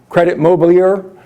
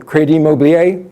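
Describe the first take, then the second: First: The name is said with an American pronunciation. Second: The name is said with a French pronunciation.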